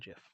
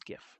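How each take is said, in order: First: The word begins with a J sound. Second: The word begins with a hard G sound. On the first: The speaker calls it wrong. "It is not GIF. ... it's not peanut butter" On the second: The speaker calls it right. "which is the correct way to pronounce it"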